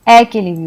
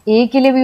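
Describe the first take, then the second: First: ए opened to "ae", like man; ए pronounced ऐ, an open "ae"; short A sound. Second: ए as "ay", like way; ए with the vowel of "way"; long A sound. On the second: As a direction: say ए as a close "ay" vowel. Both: Shown as a demonstration. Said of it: "use करते हैं".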